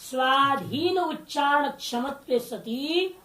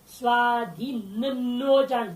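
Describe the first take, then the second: First: "स्वाधीन उच्चारण" split clearly, slow, with one na; corrected reading. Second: "स्वाधीनोच्चारण" slowly, with the doubled na pointed out; stressed wrong reading. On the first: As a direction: say "स्वाधीन उच्चारण क्षमत्व सती" slowly, word by word. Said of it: "ठीक नहीं, एक नकार". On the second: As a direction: read "स्वाधीनोच्चारण" as the wrong form, slow and deliberate. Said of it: "दो नकार आ गया". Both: Shown as a demonstration.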